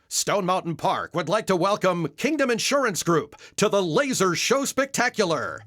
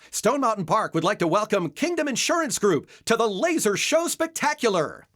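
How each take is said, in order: First: It is spoken low and deep, like an announcer. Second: It is spoken with hyper, excited energy.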